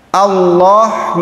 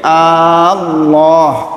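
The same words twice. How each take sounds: First: The opening vowel is short. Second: The opening vowel is drawn out long. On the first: The speaker calls it right. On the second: The speaker calls it wrong.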